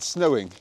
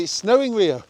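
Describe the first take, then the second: First: Said in the usual way. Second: High, bright-eyed call to the dog; excited. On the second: Shown as a demonstration. Owner teasing the dog with exciting news, high and excited. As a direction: sell the snow like a treat.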